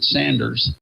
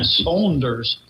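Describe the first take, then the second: First: The first vowel is a short 'a' sound. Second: The first vowel is an 'aw' sound. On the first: The speaker calls it wrong. "I used to pronounce it Sanders, and that would make them so upset" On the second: The speaker calls it right. "there's you in there somewhere that you actually pronounce"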